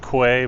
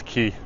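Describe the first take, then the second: First: The word is said like "kway". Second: The word is said like "key". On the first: The speaker calls it wrong. "Most people will pronounce that as Quay" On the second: The speaker calls it right. "but it's Key. That's how you pronounce it"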